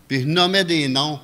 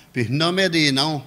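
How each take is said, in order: Both takes have the same delivery.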